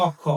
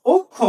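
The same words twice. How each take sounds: First: অক্ষ said with an open o, like ɔkkho; অক্ষ read as ɔkkho, the way we shouldn't; অক্ষ with the open first vowel ɔ; wrong reading. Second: অক্ষ said okkho, with a closed o, high and loud; অক্ষ as okkho, a clear closed first vowel, ringing out; correct reading. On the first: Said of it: "অক্ষ না". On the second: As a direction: call out অক্ষ as okkho with a rounded o. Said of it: "এটার উচ্চারণ হলো অক্ষ". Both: Shown as a demonstration.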